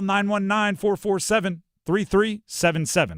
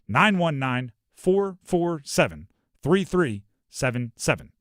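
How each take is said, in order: First: The number is read quickly. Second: The number is read more slowly.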